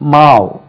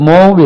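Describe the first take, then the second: First: The vowel sounds like 'ow'. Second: The vowel sounds like 'oh'. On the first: The speaker calls it right. "இது மாவ்" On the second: The speaker calls it wrong. "அது மோவ்னு உச்சரிப்பாங்க தவறாக"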